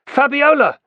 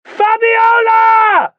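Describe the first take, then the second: First: Higher, louder shouted name. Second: Much higher, much louder, slow drawn-out bellow of the name; full bellow. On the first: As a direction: call her name across the dock. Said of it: "he shouted". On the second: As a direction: roar her name with everything you have. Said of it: "bellowed at the top of his voice". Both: A narrator's reading.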